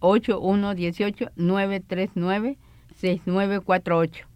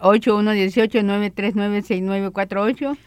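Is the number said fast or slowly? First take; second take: slowly; fast. First: The number is said slowly. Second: The number is said fast.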